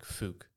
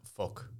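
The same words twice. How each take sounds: First: "fook" with an 'oo' vowel; fuck said as fook. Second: "fuck" with a short 'uh' vowel; usual vowel in fuck. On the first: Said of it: "put fuck, but, like, fook". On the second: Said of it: "No, but you put". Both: Shown as a demonstration.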